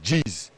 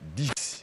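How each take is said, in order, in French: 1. Il est prononcé avec une prononciation du français teintée d'accent luba. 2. Il est prononcé avec une prononciation standard du français. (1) "ils disent dix" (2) "pour dire dix"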